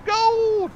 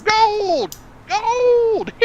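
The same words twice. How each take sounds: First: High prospector shout; old-timey miner. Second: High, loud prospector yell; old-timey miner voice. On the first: Pretend. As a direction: yell gold like a miner. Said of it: "old-timey miner voice". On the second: Shown as a demonstration. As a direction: shout it like a gold-mad miner. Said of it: "in your best, like, old-timey miner voice".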